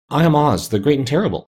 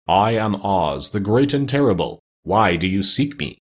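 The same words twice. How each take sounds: First: Higher, trembling little-man voice; timid, tremulous announcement pitched up. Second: Slow, solemn proclamation; measured, weighty pronouncement with drawn-out words. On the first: Exposed wizard introduces himself to attackers, trembling. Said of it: "said the little man in a trembling voice". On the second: Unseen Oz announces himself to his visitors, solemn. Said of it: "they heard a solemn voice". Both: A narrator's reading.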